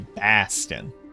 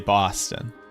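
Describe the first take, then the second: First: The first vowel is open and unrounded. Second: The first vowel is rounded, with a w-like quality. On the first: "I don't say Baston" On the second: "Like with a like a W"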